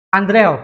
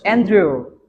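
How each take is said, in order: First: The name is read letter by letter as spelled. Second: The name is said with English pronunciation. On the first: "tulisannya Andreo dalam bahasa Indonesia" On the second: "Dibacanya apa? Andrew"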